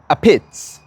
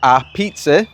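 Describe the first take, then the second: First: It ends in a short clipped 'peetz' sound. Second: It is said like the word pizza. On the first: The speaker calls it right. "but you pronounce it a pits" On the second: The speaker calls it wrong. "It's one word"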